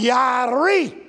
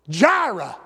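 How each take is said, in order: First: The word begins with a Y sound. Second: The word begins with a J sound.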